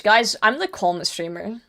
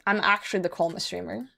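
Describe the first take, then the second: First: Said in the usual way. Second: Softer, insistent "actually" on the repeat; softer insisting. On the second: Real, not acted. Streamer insisting to chat he's calm, softer and insistent. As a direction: drop your voice and insist you really are calm.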